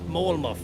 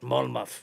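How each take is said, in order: First: The first syllable sounds like 'mole'. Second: The first syllable sounds like 'mull'. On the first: The speaker calls it wrong. "Not Molemuff, somebody's saying there" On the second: The speaker calls it right. "But Mulmuff"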